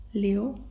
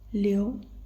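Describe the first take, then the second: Both takes have the same delivery.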